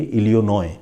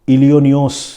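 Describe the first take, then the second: First: The name ends without any S sound. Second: The name ends with an audible S sound. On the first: The speaker calls it right. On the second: The speaker calls it wrong.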